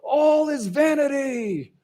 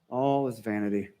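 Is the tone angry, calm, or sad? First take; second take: angry; calm. First: It is said loudly and angrily. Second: It is said calmly and thoughtfully. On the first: The speaker is furious about life's emptiness. "Is he real loud and angry" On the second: The speaker accepts life's emptiness with composure. "maybe he's just very contemplative and very stoic"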